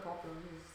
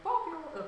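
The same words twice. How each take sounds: First: Low, quiet exasperated Poppy Oil; exasperated mutter. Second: High eager call of Poppy Oil; excited. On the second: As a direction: blurt Poppy Oil out brightly. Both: Retold or imitated. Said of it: "I was like".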